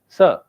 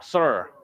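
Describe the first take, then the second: First: The final R is not pronounced. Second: The final R is strongly pronounced. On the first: "British people say sir, no R" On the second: "there's a lot of stress on R"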